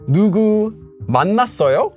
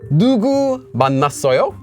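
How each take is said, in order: First: 누구 is said without emphasis. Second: 누구 is said with strong emphasis. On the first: It asks whether someone was met. "not emphasizing that word will make it mean some" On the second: It asks who was met. "emphasizing the word will make it mean that question word again"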